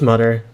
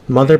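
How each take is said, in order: First: It has a hard t or d sound. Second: It has a soft th sound.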